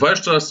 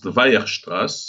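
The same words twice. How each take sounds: First: The name is said with English sounds. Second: The name is said with German sounds.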